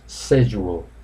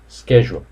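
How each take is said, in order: First: It is said with a British pronunciation. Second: It is said with an American pronunciation. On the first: "British pronounce schedule" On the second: "Americans pronounce schedule"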